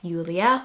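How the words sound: The name is said with a German pronunciation. The speaker calls it wrong. "in Germany it would be pronounced Julia, which I don't care for"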